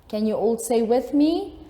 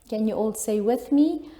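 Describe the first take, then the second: The two takes are said the same way.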